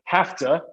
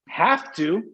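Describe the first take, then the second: First: The two words blend into hafta. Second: Both words are said in full.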